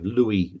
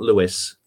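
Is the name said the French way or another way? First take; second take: French way; another way. First: The name is said the French way. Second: The name is not said the French way. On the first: The speaker calls it right. "It's pronounced the French way" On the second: The speaker calls it wrong.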